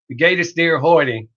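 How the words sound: It is spoken with a heavy Southern American drawl. The speaker calls it wrong. "I spoke German with a very heavy Southern drawl"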